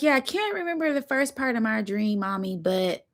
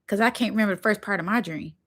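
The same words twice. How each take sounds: First: Put-on higher, light little boy voice; little son. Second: Said in the usual way. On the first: Son telling Mommy about his dream, a light child voice. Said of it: "He's like". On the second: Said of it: "as soon as he said that".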